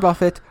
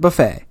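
First: The word is said the way it is spelled. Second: The word is not said the way it is spelled. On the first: The speaker calls it wrong. "It is not a buffet" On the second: The speaker calls it right. "It is buffet"

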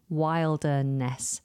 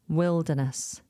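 First: The first vowel sounds like the one in 'mild'. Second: The first vowel sounds like the one in 'mill'. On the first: The speaker calls it wrong. "It looks like wilderness" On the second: The speaker calls it right. "But we pronounce it wilderness"

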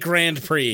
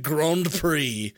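First: It is said with an American pronunciation. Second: It is said with a British pronunciation. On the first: The speaker calls it wrong. "You can never say Grand Prix" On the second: The speaker calls it right. "it has to be Grand Prix"

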